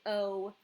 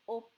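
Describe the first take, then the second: First: The vowel is drawn out long. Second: The vowel is clipped short. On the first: The speaker calls it wrong. "don't say O" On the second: The speaker calls it right. "So when we say O"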